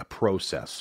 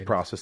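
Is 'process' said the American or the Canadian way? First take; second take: Canadian; American. First: It is said with a Canadian pronunciation. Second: It is said with an American pronunciation. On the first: "as the Canadians say" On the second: "we say process"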